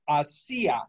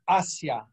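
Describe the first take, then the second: First: The stress is on the second syllable. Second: The stress is on the first syllable. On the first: It means made or did. "that's with an accent mark" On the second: It means towards. "the stress is on the A"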